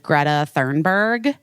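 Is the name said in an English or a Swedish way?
English. The name is said with an English pronunciation. This is how the speaker used to say it. The speaker calls it wrong. "Because I was like"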